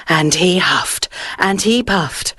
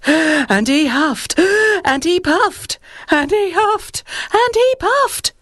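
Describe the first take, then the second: First: Said in the usual way. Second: Building strain. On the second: A narrator's reading. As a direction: climb higher with every huff, straining. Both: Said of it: "repetition builds".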